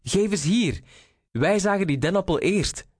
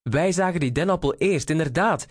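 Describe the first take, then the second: First: High, insistent storybook call. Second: High, quick chiming-in; echoing call. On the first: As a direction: demand it back in a high voice. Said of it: "riep Reinier". (hoog en dwingend geroepen) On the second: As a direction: call out in hurried agreement, pitched high. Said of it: "riep Eduard ook". (hoog en snel meegeroepen) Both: A narrator's reading.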